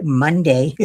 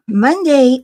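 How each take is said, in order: First: Said in the usual way. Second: "Monday" higher and louder, announced with a push; emphatic Monday. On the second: Real, not acted. Telling viewers about her surgeon appointment, "Monday" said high and loud. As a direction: lift "Monday" up, a big announcement.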